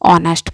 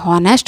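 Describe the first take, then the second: First: The word begins with a vowel sound. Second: The word begins with an h sound. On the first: The speaker calls it right. "एच silent होता है, इसलिए हम इसे ऑनेस्ट पढ़ते हैं" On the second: The speaker calls it wrong. "इसे हॉनेस्ट ना पढ़ के"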